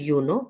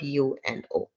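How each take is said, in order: First: It is said as one whole word. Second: Each letter is said separately. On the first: The speaker calls it wrong. "We don't say it as" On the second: The speaker calls it right.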